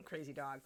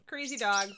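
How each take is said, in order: First: Quiet aside. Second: Louder repeat. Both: Real, not acted.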